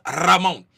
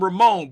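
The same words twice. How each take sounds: First: Ramon with a trilled R up front; rolled R. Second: Said in the usual way. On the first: Retold or imitated. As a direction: roll the R at the start of Ramon. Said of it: "but he said his name is". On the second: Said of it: "and I call him Ramon".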